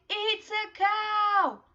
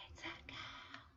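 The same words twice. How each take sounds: First: Much higher, louder, slow; model to repeat. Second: Whispered, far softer. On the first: Teacher modelling the sentence for the class. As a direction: say it big and clear for kids. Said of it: "So let's say". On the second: Teacher whispering the sentence back to kids. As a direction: whisper the echo softly. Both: Shown as a demonstration.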